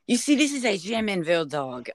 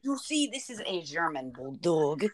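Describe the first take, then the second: First: Put-on German accent slipping into French; mock French accent, slightly raised; botched French accent. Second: Softer mock German accent; tentative put-on German accent; attempted German accent. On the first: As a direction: attempt German but land on a French accent. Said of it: "that was a French ants-, accent". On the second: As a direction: have another go at a German accent. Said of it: "how do you do German accent".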